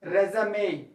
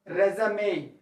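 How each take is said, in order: First: It is pronounced the noun way. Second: It is pronounced the noun way.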